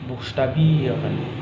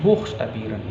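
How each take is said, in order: First: The stress falls on the 'bie' syllable. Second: The stress falls away from the 'bie' syllable. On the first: The speaker calls it right. "tapi buchstabieren" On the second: The speaker calls it wrong. "bukan buchstabieren"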